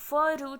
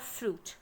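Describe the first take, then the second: First: The f and r sounds are said separately. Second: The f and r sounds are blended together. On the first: The speaker calls it wrong. "फ्रूट आप नहीं बोलते" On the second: The speaker calls it right. "Blended form में इसका भी sound आएगा"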